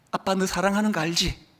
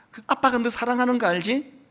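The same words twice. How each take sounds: First: Softer tender father's reassurance. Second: Tender father. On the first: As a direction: quietly remind her she is loved. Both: Retold or imitated. Father's tender words to daughter.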